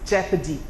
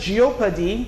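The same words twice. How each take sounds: First: The first syllable has an 'eh' vowel. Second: The first syllable has an 'ee-oh' vowel. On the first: The speaker calls it right. "E O says E and not E O" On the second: The speaker calls it wrong. "the word is not jeopardy"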